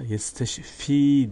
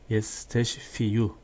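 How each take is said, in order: First: The word ends on 'fi' with no extra syllable. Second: The word ends with an extra final 'yu' syllable. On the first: It is the normal way the word is read. The speaker calls it right. "yesteşfi diye okunur" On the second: It shows the full underlying form of the word. The speaker calls it wrong. "Ben kelimenin aslını okudum"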